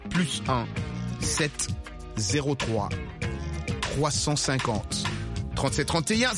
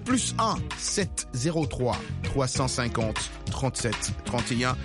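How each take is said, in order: First: The number is read slowly and deliberately. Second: The number is read at a quick, normal pace.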